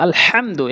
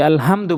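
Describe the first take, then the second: First: আলহামদু with হা from mid-throat; আলহামদু said with Arabic throat h; Quran recitation of আলহামদু. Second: Said in the usual way. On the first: Shown as a demonstration. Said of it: "বলতে হবে আলহামদু". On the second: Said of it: "আলহামদু বলি".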